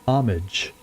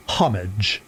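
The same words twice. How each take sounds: First: "homage" as OM-ij, H dropped; silent H. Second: "homage" with the H sounded; narrator's pronunciation. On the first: Shown as a demonstration. Player giving his first inclination, "homage" with silent H. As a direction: say "homage" without the H. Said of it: "my first inclination there is to say". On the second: Retold or imitated. Player echoing how she says it, "homage" with a sounded H. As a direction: say "homage" as HOM-ij, H pronounced. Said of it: "as she says it".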